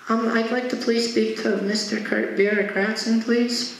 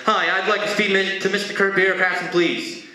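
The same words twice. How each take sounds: First: Put-on high, childlike polite request; kid. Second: Hurried, higher-pitched irritated request; a little pissed. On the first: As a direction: ask timidly in a small kid's voice. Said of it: "he feels like a kid". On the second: Retold or imitated. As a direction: rush the polite words with mild annoyance. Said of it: "this time he's a little pissed".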